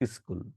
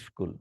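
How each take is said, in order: First: An extra vowel comes before the s-k cluster. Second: It starts directly with the s-k cluster. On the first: "উচ্চারণের সুবিধার কারণে ধ্বনি পরিবর্তন করি" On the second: "স্কুলকে"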